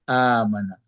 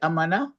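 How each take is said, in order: First: The first vowel is long. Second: The first vowel is short. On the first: He believed. "Ya dipanjangkan A-nya" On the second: He was safe. "Kalau kalau pendek"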